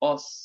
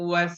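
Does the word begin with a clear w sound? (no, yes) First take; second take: no; yes. First: The word starts with a plain vowel, no w. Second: The word starts with a clear w sound. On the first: The speaker calls it wrong. "উচ্চারণ যাতে এমন না হয় যে অস" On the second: The speaker calls it right. "উচ্চারণ হবে ওয়াস"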